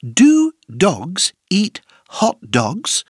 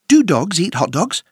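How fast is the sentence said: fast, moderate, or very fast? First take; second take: moderate; fast. First: The sentence is said at a moderate pace. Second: The sentence is said at a fast pace.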